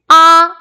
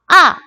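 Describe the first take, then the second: First: The pitch stays high and level. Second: The pitch falls sharply from high to low. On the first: "일성" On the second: "사성"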